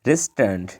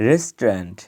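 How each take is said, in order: Both takes have the same delivery.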